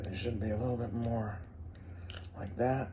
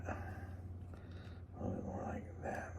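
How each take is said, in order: First: Said in the usual way. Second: Whisper. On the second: Real, not acted. Repeats line, whispered.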